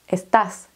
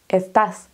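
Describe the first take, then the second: The two takes are said the same way.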